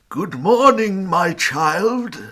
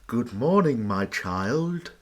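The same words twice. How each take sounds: First: The voice sounds fairly pleasant and less sinister. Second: The voice sounds creepier and more sinister. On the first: "Was that as pleasantly as you could do that voice" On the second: "That's creepier"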